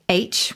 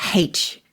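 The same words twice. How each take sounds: First: The letter name starts without an h sound. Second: The letter name starts with an h sound. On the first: This is the standard dictionary form. "the standard given in the dictionary at the moment is still H without" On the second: This is the newer form used by the younger generation. "H is predominantly used by the kids"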